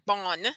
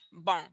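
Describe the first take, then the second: First: The final N is pronounced hard and full. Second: The final N is pronounced soft and light. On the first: The speaker calls it wrong. "It's not a hard N like bon" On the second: The speaker calls it right. "but it's a softer bon"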